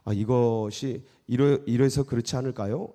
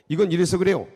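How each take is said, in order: First: It is said softly and tentatively. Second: It is said bluntly and assertively.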